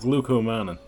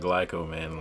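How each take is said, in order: First: The first syllable sounds like 'glu'. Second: The first syllable sounds like 'gly'. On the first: The speaker calls it right. "that is the proper pronunciation for it" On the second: The speaker calls it wrong. "not glycomannan like I said earlier in the video"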